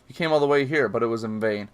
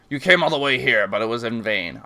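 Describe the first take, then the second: First: It is said in the speaker's ordinary voice. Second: It is said in a put-on character voice.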